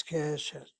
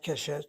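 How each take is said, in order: First: "Keshet" stressed on its first syllable, ke. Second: "Keshet" stressed on the last syllable, shet; wrong final stress. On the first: Teacher correcting the reading for students, first-syllable stress on "Keshet". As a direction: lean on the Ke in "Keshet". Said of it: "she shows the accent over the Sego". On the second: Teacher showing students the wrong reading, final-syllable stress on "Keshet". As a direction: throw the weight onto the end of "Keshet". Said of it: "it gets emphasized. It's not Keshet". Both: Shown as a demonstration.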